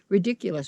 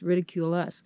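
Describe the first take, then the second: First: It is said as one ordinary word. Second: It is split into two words, ridicule us.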